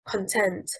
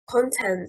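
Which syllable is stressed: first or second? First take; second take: second; first. First: The stress is on the second syllable. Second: The stress is on the first syllable. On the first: It is a verb meaning to satisfy. "stressing on the second syllable" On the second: It is a noun meaning cheerfulness. "stressing on the first syllable"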